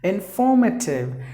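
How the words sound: It is said in a British accent.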